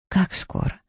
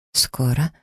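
First: Whispered tense Как скоро; pressing question. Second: Held-back annoyed echo of Скоро; Скоро as a tight, rising echo; suppressed irritation. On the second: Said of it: "эхом повторила я, с трудом сдерживая раздражение". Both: A narrator's reading.

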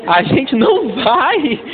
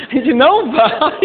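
First: Slow emphatic. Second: Não hit a touch higher; a gente não vai with não rising; stress on não. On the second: Pastor stressing não to the congregation, emphatic. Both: Shown as a demonstration.

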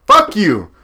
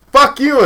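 First: Raised, heated fuck you; louder jab at co-host. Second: Much higher, louder shout; shouted fuck you. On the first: Snapping at his co-host, fairly loud. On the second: Topping his own jab at co-host, shouting. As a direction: yell it back harder. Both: Real, not acted. Heated rant at co-host's pick.

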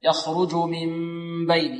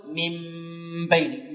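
First: من بين with a soft, unpressed hummed meem; relaxed long hum before بين; without pressing lips. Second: من بين with lips pressed hard on the meem. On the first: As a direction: hold the meem in من بين, lips lightly touching. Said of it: "بدون كز الشفتين". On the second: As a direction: demonstrate the faulty tight-lipped hum in من بين. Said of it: "بدون كز. لا نقول". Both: Shown as a demonstration.

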